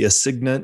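It is said with an American-style pronunciation. "as we would say it in American French"

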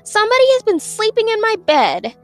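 It is said in a medium, middle voice.

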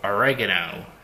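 The word is said the American way.

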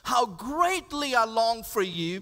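It is read with deep, heartfelt feeling. The speaker calls it right. "There's some deep pathos in that verse"

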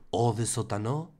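It is said in a put-on French accent.

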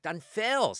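The word feos is said with strong emphasis.

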